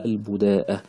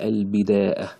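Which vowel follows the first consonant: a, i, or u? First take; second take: u; i. First: The first syllable has the vowel u. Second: The first syllable has the vowel i. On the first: "وتضم أيضا" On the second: "بالكسر كذلك"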